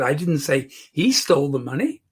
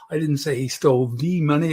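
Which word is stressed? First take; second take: he; the. First: The word "he" carries the emphasis. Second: The word "the" carries the emphasis. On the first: Someone else took it. "She stole the money" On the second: It was some other money. "I can even change the emphasis on the"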